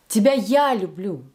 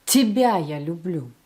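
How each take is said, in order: First: "я" punched in the middle of "Тебя я люблю"; stress on Я. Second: "Тебя" punched up front, "я люблю" falling away; strong opening "Тебя", lighter finish; stress on ТЕБЯ. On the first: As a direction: hit "я": me, not him or her. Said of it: "It's not him, not her again". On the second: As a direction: hit "Тебя": it is you. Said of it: "It is you that I love". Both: Shown as a demonstration.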